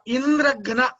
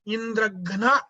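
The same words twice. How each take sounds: First: The stress falls on the first part, Indra. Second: The stress falls on the last part, gana. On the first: It means Indra's killer. "if you stress on Indra" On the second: It means one who will be killed by Indra. "When you stress on Gana"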